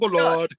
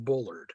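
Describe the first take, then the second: First: The name is said in a British accent. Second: The name is said in an American accent. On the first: "great proper British accent, and of course the way he pronounces it" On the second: "The correct pronunciation is Bullard"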